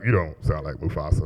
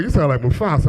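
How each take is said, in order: First: Low, quiet contradiction; imitating a son's low-key dismissal; dismissive son. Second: Said in the usual way. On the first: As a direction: drop the voice low and soft to disagree. Oldest son disagrees, much lower, softer.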